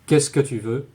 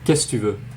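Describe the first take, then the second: First: The word que is pronounced before tu. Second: The word que is dropped before tu. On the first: "instead of saying" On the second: "many French speakers will say"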